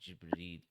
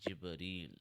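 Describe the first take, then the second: No difference in how they are said.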